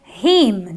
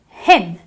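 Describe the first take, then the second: First: The vowel is a long ee sound. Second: The vowel is a short i sound. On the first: The speaker calls it wrong. "I don't say him, do I?" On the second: The speaker calls it right. "I do use the short I, so I say him"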